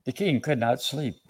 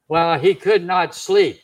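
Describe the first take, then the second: First: Said in the usual way. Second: "could not sleep" punched louder, word by word; emphatic restatement. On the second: Shown as a demonstration. Same line repeated with emphasis.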